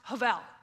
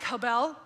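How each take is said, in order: First: The middle consonant is a V sound. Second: The middle consonant is a B sound. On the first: The speaker calls it right. "it sounds like a V sound" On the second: The speaker calls it wrong. "It looks like habel"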